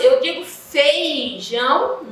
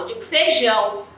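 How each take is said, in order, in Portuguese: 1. A primeira sílaba tem um glide 'i' depois de 'e'. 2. A primeira sílaba não tem glide 'i' depois de 'e'.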